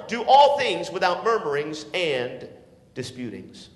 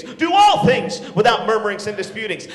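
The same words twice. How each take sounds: First: Said in the usual way. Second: Shouted verse. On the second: Acted. Preacher to teenagers, shouting the verse.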